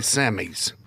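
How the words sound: It is pronounced the way Canadians say it. The speaker calls it right. "read it like Canadians say"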